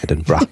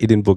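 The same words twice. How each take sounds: First: It is said roughly, the Scottish way. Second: It is said the German way.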